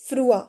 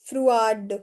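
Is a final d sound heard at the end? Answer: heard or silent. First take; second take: silent; heard. First: The word ends on the vowel, d silent. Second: The word ends with a d sound. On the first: The speaker calls it right. "We से फ्रुआ" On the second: The speaker calls it wrong. "We don't say फ्रुआड"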